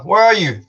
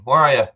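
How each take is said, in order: First: Loud, high call-out question; shouting. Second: Said in the usual way. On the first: Real, not acted. Streamer asking a far-off viewer where they are, shouting. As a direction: call it out across the room. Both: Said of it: "Don't know why I'm shouting".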